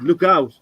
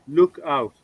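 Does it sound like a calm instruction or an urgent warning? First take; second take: urgent; calm. First: It is said as an urgent warning. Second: It is said as a calm, plain instruction. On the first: Be careful, there is danger. "now I'm warning you" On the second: Look through a window or door. "I was telling you you'd probably look out a window"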